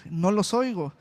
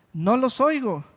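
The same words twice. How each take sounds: First: Said in the usual way. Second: Firmer repeat, leaning on "oigo"; emphatic repeat. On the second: Shown as a demonstration. Preacher repeating Jesus' words to the congregation, firmer. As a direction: say it again with more push on "oigo".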